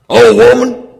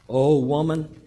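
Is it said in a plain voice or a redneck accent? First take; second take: redneck; plain. First: It is said in a put-on redneck accent. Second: It is said in a plain reading voice.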